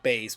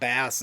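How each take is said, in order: First: The vowel rhymes with face. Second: The vowel rhymes with mass. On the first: It names the musical instrument. The speaker calls it right. "instead of bass" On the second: It names the fish. The speaker calls it wrong. "a bad habit I've had all my life is calling it bass"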